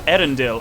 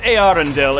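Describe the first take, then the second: First: The first two vowels merge into one sound. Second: The first two vowels are pronounced as separate sounds. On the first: The speaker calls it wrong. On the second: The speaker calls it right.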